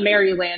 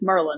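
First: Each syllable of the name is said in full. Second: The name is squeezed into two short syllables. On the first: The speaker calls it wrong. "it's not Maryland" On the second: The speaker calls it right. "it's Merlin"

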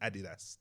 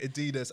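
First: It is pronounced the British way. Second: It is pronounced the American way. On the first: "In the UK we say Nike and Adidas" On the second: "in America they say Adidas"

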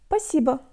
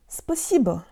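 First: An S sound is dropped from the word. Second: Every sound of the word is fully pronounced.

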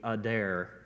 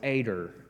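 First: The name is said in a standard, careful way. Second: The name is said in a Southern American way. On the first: "I guess the way it's supposed to be pronounced, it would be Eder" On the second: "I'm from the South, and it's Eder"

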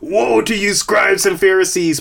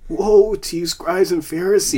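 First: It is said in a harsh, stern tone. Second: It is said in a sorrowful, tearful tone. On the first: It is a severe condemnation. The speaker calls it wrong. "So oftentimes we hear" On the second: It is a grieving lament. The speaker calls it right. "But it's more of"

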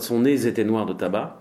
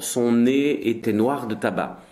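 First: The words are joined with a liaison. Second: The words are said without a liaison. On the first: The speaker calls it wrong. "It's not" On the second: The speaker calls it right. "The same for"

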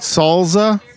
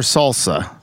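First: The middle consonant is a buzzing Z sound. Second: The middle consonant is a hissing S sound.

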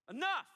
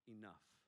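First: It is said forcefully, as an exclamation. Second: It is said calmly, without force.

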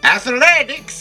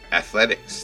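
First: It is said in a loud, exaggerated, silly way. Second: It is said in a plain, ordinary way. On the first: The speaker calls it right. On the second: The speaker calls it wrong.

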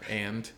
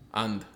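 First: It is said in the speaker's plain accent. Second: It is said in a Bahamian accent.

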